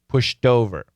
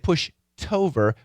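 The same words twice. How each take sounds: First: The end of 'pushed' links as a D. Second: The end of 'pushed' sounds like a T. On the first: The speaker calls it right. "when we link it, it goes back to being a D" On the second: The speaker calls it wrong. "we don't say pushed over"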